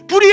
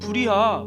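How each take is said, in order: First: It is shouted loudly and urgently. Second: It is said calmly, without urgency.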